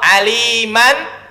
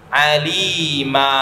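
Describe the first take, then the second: First: The word ends with an -an sound. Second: The word ends with a long a vowel. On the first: The reading continues without stopping. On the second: The reading stops here.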